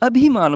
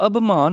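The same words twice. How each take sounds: First: ਅਭਿਮਾਨ as "a-bhi-maan"; sounded i. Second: ਅਭਿਮਾਨ as "abh-maan"; wrong missing i. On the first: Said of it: "ਭੱਬੀ ਨੂੰ ਵੀ ਸਿਹਾਰੀ". (ਅਭਿਮਾਨ ਵਿੱਚ ਸਿਹਾਰੀ ਉਚਾਰੋ) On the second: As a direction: drop the i from ਅਭਿਮਾਨ. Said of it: "ਅਭਿਮਾਨ ਨਹੀਂ ਬੋਲਣਾ". (ਅਭਿਮਾਨ ਨੂੰ "ਅਭਮਾਨ" ਬੋਲੋ) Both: Shown as a demonstration.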